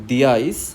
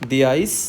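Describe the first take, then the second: Both takes have the same delivery.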